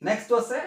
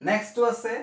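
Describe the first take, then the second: The two takes are said the same way.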